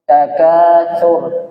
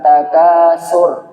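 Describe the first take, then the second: First: The middle consonant is a soft 'th' sound. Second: The middle consonant is a plain 's' sound. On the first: The speaker calls it right. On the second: The speaker calls it wrong. "bukan takasur ya"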